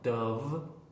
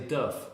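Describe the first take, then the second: First: The word ends in a v sound. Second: The word ends in an f sound. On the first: This is the brand name meaning dove, the bird. The speaker calls it right. "all the companies like Dove" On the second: This sounds like a word meaning not good. The speaker calls it wrong. "because they say Duff, which is, means not good"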